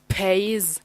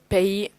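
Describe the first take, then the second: First: The final S is sounded. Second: The final S is silent. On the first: The speaker calls it wrong. "instead of pays" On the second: The speaker calls it right. "it's better to say pay"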